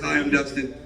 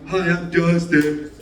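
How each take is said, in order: First: It is said in his normal voice. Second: It is said in an exaggerated put-on voice.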